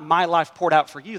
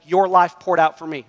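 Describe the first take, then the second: First: "My" stressed with a rise. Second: "Your" hit hard and louder, falling after; stress on your. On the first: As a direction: lift the word "My" in "My life poured out for you". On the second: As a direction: lean on "Your" in "Your life poured out for me". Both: Shown as a demonstration. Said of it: "That's Jesus's ethic".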